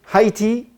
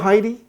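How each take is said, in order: First: The word ends with a clear T sound. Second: The word ends with a soft D-like sound. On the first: The speaker calls it right. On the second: The speaker calls it wrong.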